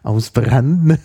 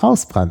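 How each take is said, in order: First: It is pronounced the Italian way. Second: It is pronounced the German way.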